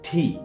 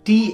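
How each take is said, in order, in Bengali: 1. t ধ্বনিতে হাওয়ার একটা জোরালো ফুঁ থাকে। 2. t ধ্বনিতে হাওয়ার কোনো ফুঁ থাকে না। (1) "আজকে থেকে এটাকে ঠয়ের মতো উচ্চারণ করবেন" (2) "নট টি এনিমোর"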